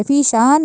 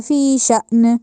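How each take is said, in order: First: فی شان said with a smooth long aa; wrong way. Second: فی شأن with a sharp glottal stop on the hamza; with a jolt. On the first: Teacher demonstrating the mistake to students. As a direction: glide through فی شان with no catch. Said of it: "فی شان نہیں کہنا". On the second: Teacher showing the correct hamza stop. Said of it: "اس طرح کہا جائے گا". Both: Shown as a demonstration.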